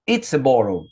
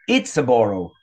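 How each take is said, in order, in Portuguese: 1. "It is" é contraído em uma sílaba rápida. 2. "It is" é contraído em uma sílaba rápida.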